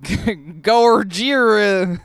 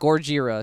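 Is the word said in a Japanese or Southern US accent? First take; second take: Southern US; Japanese. First: It is said with a Southern twang. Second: It is said the Japanese way.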